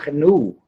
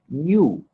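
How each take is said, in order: First: The word begins with a hard g plus n. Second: The word begins with a ny sound. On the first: The speaker calls it wrong. "pero nunca gnu. ¡Qué feo!" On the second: The speaker calls it right. "en castellano se pronuncia ñu, como si comenzara por ñ"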